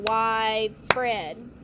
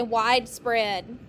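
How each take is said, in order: First: "widespread" drawn out in two slow beats; syllable by syllable. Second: Said in the usual way. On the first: Shown as a demonstration. Teacher clapping out a word for students, "widespread" slowly syllable by syllable. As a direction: clap out "widespread", stretching each syllable. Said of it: "Clap it". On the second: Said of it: "Everyone say widespread".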